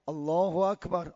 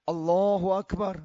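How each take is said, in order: No difference in how they are said.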